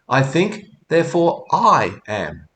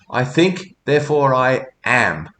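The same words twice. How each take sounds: First: The stress falls on the word I. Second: The stress falls on the word am.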